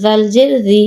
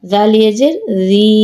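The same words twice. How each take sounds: First: No stretch on জি; short vowel. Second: Long, sustained জি; drawn-out vowel. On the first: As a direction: end on a short জি. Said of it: "কোথায় দ্রুত পড়ি". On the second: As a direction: hold the final জি for one alif count. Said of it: "কোথায় টান দিই". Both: Shown as a demonstration.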